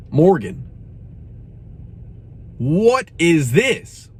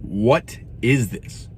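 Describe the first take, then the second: First: Exasperated. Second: Stare at the can and ask it slowly; slow disbelief. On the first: Reviewer appealing to [name], slow and exasperated. Calling out the singer by name. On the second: Reviewer asking the tea in slow disbelief. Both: Real, not acted.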